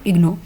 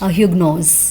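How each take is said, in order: First: The word starts without an h sound. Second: The word starts with an h sound. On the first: This is how the French say it. "French में इसमें जो एच है that is silent" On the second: This is how English speakers say it. "English में इसको वो लोग पढ़ते हैं"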